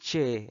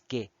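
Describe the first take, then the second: First: The word begins with a ch sound. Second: The word begins with a k sound. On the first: The speaker calls it wrong. "No es che" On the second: The speaker calls it right. "Es que"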